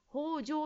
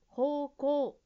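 First: The middle consonant is a j sound. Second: The middle consonant is a k sound. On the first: The speaker calls it wrong. "方丈指示器と言っていました" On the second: The speaker calls it right. "方向です"

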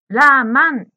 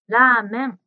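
First: The middle syllable has an 'a' vowel. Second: The middle syllable has an 'e' vowel. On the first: The speaker calls it wrong. "[name]さんのラーメンがラーマンに聞こえました" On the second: The speaker calls it right. "真ん中の文字の発音が少し難しいですね"

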